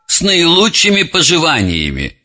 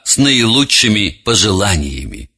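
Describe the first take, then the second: First: The phrase is slurred, with sounds swallowed. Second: The phrase is said clearly, every sound articulated. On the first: The speaker calls it wrong. "И классическое «с наилучшими пожеланиями» вместо" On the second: The speaker calls it right. "вместо «с наилучшими пожеланиями»"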